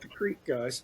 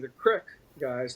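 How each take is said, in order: First: Creek is said with a long vowel, like seek. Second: Creek is said with a short vowel, like crick. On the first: This is how people outside Ohio say it. "not the Creek guys" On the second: This is how people in Ohio say it. "here in Ohio, that would be the Crick guys"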